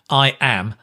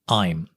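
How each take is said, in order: First: It is said as two full words. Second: It is said as one contracted syllable.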